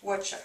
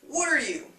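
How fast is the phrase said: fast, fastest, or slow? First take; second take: fastest; fast. First: The phrase is squeezed into two quick syllables. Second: The phrase is said faster with words running together. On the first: "The fastest one you'll hear" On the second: "Then faster"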